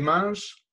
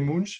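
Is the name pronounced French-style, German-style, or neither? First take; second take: French; German. First: The name is pronounced as French would read it. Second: The name is pronounced as German would read it. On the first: "À la française, ça serait Munch" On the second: "À l'allemande, ça serait Munch"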